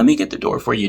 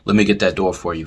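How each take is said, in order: First: It is said in a raised, overexcited voice. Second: It is said in a steady, natural voice.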